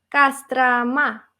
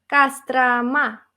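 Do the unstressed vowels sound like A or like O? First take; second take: A; A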